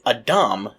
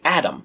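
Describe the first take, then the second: First: The name is said with Hebrew sounds. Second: The name is said with English sounds. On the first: "Adam is the Hebrew pronunciation" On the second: "in English, we tend to say Adam"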